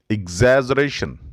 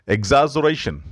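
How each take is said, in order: Both takes have the same delivery.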